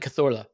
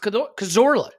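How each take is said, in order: First: The name is said with Catalan pronunciation. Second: The name is said with English pronunciation. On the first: The name is given its authentic native form. The speaker calls it right. "if you say the name authentically" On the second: The name is given a familiar anglicized form. The speaker calls it wrong. "Just say it normal"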